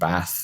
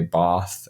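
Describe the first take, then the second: First: It is said in a non-posh British accent. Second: It is said in a posh London accent. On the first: This is how the speaker personally says it. "I say like that" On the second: This is how many other people say it. "where a lot of people say bath"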